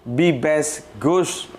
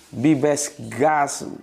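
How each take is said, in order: First: The last word has a rounded 'u' vowel. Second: The last word has an open 'a' vowel. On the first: The speaker calls it right. "jadi harusnya bacanya begini" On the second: The speaker calls it wrong. "Gus dibaca gas"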